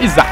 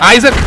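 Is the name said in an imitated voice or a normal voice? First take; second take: normal; imitated. First: The name is said in the speaker's normal way. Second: The name is said imitating the mother's voice. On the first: It is how the speaker usually says it. "Quando eu não tô, eu falo Isaac" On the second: It mimics how the mother calls him. "Eu só falo Isaac quando eu tô imitando a mãe"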